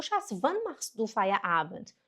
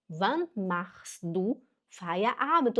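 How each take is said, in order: First: "wann machst du Feierabend" joined up, measured; careful connected German question; model phrase. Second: "Wann machst du Feierabend" slowly, word by word; slow model phrase. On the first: Teacher shows how to ask a husband, connected model phrase. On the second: Teacher repeats the alternative for learners, slow and segmented. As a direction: leave gaps between the German words. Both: Shown as a demonstration. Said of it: "Você pode falar também".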